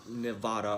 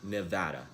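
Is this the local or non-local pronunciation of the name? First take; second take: non-local; local. First: It uses a pronunciation locals would not use. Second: It uses the pronunciation locals use. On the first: The speaker calls it wrong. "not Nevada or whatever sinister spell" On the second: The speaker calls it right. "It's pronounced Nevada"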